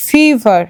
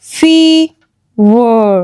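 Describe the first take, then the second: First: Said in the usual way. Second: ফিভার split very slowly, "feee... ver"; long open syllable. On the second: Shown as a demonstration. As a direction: sound out ফিভার with a held first vowel. (ফিভার ভেঙে ভেঙে, টানা ই) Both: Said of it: "ই এর long sound হচ্ছে".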